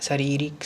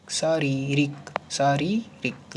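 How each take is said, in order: First: Said in the usual way. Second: शारीरिक drawn out syllable by syllable; slow dictation. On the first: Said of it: "शारीरिक नहीं". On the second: Shown as a demonstration. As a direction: spell it out slowly for the class. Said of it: "अगला शब्द है शारीरिक".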